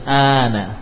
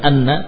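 First: A long vowel is followed by a single n. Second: A short vowel is followed by a doubled n. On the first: The speaker calls it right. "tapi ana panjang" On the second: The speaker calls it wrong. "bukan anna"

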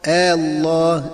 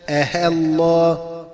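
First: The second hamza becomes a short plain a. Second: The second hamza becomes a clear h sound. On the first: "أن تبدل ألف خالصة هكذا مع القصر" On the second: "أن تبدل الهمزة المسهلة هاء خالصة هكذا"

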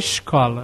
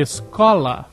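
First: The s is said in a Rio accent. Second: The s is said in a Curitiba accent. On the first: "no Rio é escola" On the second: "em Curitiba é escola"

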